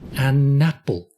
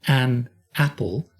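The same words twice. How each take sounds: First: The N is linked onto the next word. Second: The N is separated from the next word. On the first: The speaker calls it right. "we say an apple. That N is kicking" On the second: The speaker calls it wrong. "We don't say"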